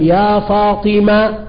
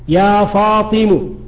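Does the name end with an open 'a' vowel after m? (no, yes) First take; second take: yes; no. First: The final m ends with an open a vowel. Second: The final m does not end with an a vowel. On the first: The listener expects a final t to follow. "الميم ما حركتها؟ ... مفتوحة الفتحة" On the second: The shortened name is treated as complete. "إذا لم ينتظر نقول يا فاطم"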